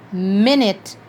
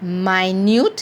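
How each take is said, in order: First: It is the pronunciation used for the meaning time. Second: It is the pronunciation used for the meaning tiny. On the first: It refers to a unit of time. "minute meaning relating to time" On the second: Something is very small. "Minute meaning tiny"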